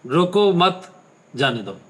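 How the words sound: There is a pause right after 'mat'.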